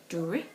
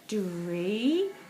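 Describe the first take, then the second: First: The word ends with a short 'ih' vowel sound. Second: The word ends with an 'ee' vowel sound. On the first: "try it with the I pronunciation" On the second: "see if it's the e pronunciation"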